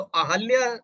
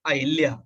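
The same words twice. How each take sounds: First: अहल्या said slowly with a short अ after ह; correct form. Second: अहिल्या with an i after ह; wrong extra i sound. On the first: Teacher slowly giving students the correct अहल्या. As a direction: say अहल्या as अ-हल्-या. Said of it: "तो अहल्या सही है". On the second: Teacher showing students the wrong अहिल्या with an i. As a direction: say अहिल्या the common wrong way, अ-हि-ल्या. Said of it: "हम लोग बोलते हैं अहिल्या". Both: Shown as a demonstration.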